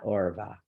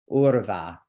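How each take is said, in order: First: "orva" opened on an OR vowel; mispronunciation shown. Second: "urva" opened on an OOR vowel; correct pronunciation. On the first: Teacher showing what to avoid, mistaken "orva". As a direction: say "orva" with oh before the r. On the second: Teacher correcting a common mistake, careful "urva". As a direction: say "urva" with oo before the r. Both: Shown as a demonstration. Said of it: "not orva".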